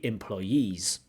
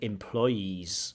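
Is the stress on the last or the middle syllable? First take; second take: last; middle. First: The stress is on the last syllable. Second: The stress is on the middle syllable. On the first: The speaker calls it right. "the stress should be on the last syllable" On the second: The speaker calls it wrong. "you have too much of a stress on the middle syllable"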